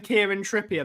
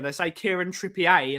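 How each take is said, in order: First: Said in the usual way. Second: Trippier said French, ending "pee-ay"; French-style Trippier. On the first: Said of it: "instead of saying". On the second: Shown as a demonstration. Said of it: "like his French".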